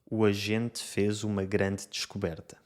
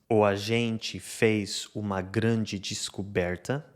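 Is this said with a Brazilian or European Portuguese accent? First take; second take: European; Brazilian. First: Final e is weak, with plain t and d. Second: Final e sounds like i, with ch-like t. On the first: "e em Portugal" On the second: "esta frase no Brasil lê-se"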